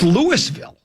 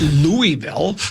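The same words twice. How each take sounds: First: The first part sounds like 'Lewis' with an s. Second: The first part sounds like 'Louie' without an s. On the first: The speaker calls it right. "It's Louisville" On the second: The speaker calls it wrong. "It's not Louisville. Where does it say Louis?"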